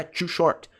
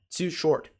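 First: TOO in "too short" turned into "chu"; wrong too short. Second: TOO in "too short" with a clean English 't'; slow it down, TOO with 't' and no 'ch'; correct too short. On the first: Teacher shows the mistake to avoid, TOO as "chu". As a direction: say TOO with a 'ch' sound, non-native style. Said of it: "Não é". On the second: Teacher corrects the mistake, slow TOO with a pure 't'. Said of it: "é too short". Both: Shown as a demonstration.

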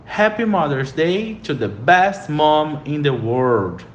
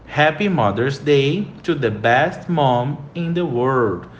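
First: Happy Mother's Day to the best mom in the world, said slowly; slow model sentence. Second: Happy Mother's Day to the best mom in the world, repeated slowly; slow model sentence again. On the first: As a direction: read it slowly and clearly to repeat. (frase modelo lenta) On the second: (frase modelo repetida devagar) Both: Shown as a demonstration. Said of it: "Terceira frase".

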